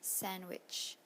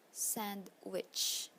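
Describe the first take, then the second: First: One consonant in the middle cluster is dropped. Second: Every consonant in the middle cluster is pronounced.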